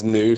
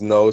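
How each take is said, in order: First: It is said as one syllable, like new. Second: It is said as one syllable, like no. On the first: "I pronounce it as new" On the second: "Some people pronounce it as no"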